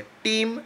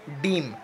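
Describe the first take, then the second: First: टीम said with a clear aspirated t, set against डीम; crisp t at the start of टीम; टीम, spoken slowly with a careful t sound; minimal pair demo. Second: डीम said with a clear voiced d, set against टीम; डीम, spoken with a careful d sound; minimal pair demo. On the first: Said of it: "इसमें सिर्फ के और P का difference है". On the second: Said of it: "बस हम टी और डी का साउंड की वजह से ये difference". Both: Shown as a demonstration.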